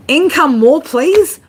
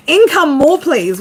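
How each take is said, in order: First: "Income more, please?" read as a puzzled question, "please" rising up high. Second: "Income more, please." with a high "Income" and "please" falling; flat statement. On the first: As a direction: ask "Income more, please?" with a strong rise on "please". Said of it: "[name], can we get English?". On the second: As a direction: say "Income more, please." like a plain request that falls at the end. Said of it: "What does that mean?". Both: Acted.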